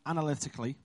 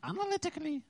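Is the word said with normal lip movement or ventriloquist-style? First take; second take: normal; ventriloquist-style. First: It is said with normal lip movement. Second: It is said without moving the lips. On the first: "I think I said that right" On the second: "Do it without moving your lips"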